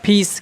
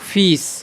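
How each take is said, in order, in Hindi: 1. यह एक aspirated ph ध्वनि से शुरू होता है। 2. यह एक मुलायम f ध्वनि से शुरू होता है। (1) "क्या नहीं बोलता फीस" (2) "क्या बोलता हूँ फीस"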